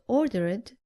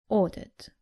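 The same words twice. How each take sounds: First: The ending is pronounced as an extra 'id' syllable. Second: The ending adds no extra syllable. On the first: The speaker calls it wrong. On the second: The speaker calls it right.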